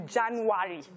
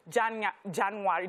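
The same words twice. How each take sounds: First: "January." said the son's way, lightly; light imitation of the son's "January."; son's way of saying it. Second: "January." with the son's pronunciation, mildly imitated; lightly imitated son saying "January.". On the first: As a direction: say "January." like the son does. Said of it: "There's a way he says". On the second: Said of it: "like my son would say".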